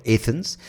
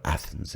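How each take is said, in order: First: Athens with a long "ay" first vowel; local Athens. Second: Athens with a short flat "a" as in cat; foreign Athens. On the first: Podcaster showing how we say it, Athens as AY-thens. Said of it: "like to call it Athens". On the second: Podcaster showing how outsiders say it, Athens as ATH-ens. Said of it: "people out there do call it". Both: Shown as a demonstration.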